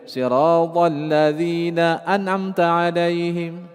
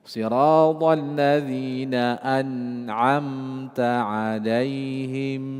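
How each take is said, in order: First: The n is said plainly without a nasal hum. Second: The n carries a short nasal hum. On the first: The speaker calls it wrong. "Jangan dibaca" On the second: The speaker calls it right. "Nah itu. An'amta 'alaihim. Ada gunnah"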